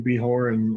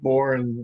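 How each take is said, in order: First: The J is sounded like an H. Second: The J is dropped, leaving born. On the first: "the J is pronounced like an H" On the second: "or sometimes silent, like just born"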